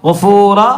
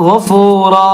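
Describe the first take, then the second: Both takes have the same delivery.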